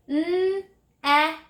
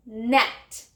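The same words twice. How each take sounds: First: 'N-et' drawn out sound by sound on a high note; stretched word. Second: Said in the usual way. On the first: Shown as a demonstration. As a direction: hold the n and e of 'N-et', then release the t. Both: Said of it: "Stretch it".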